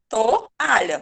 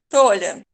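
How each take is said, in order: First: The o and a are said as separate syllables. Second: The o and a are squeezed quickly together. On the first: The speaker calls it right. "Eu falo toalha. ... O A fica só" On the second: The speaker calls it wrong. "Tinha que ser bem rapidinho"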